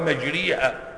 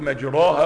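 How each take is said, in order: First: The vowel after r is a full i. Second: The vowel after r is a full open a. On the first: "ولا مجريها" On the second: "لا قلت مجراها"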